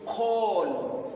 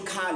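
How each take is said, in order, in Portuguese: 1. A vogal é um 'aw' arredondado. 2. A vogal é um 'ah' aberto. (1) "mas sim call" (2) "não vamos lermos cal"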